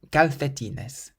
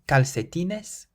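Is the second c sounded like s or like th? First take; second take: th; s. First: The second c is sounded like a th. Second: The second c is sounded like an s. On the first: "or a T H" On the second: "we can pronounce it either like an S"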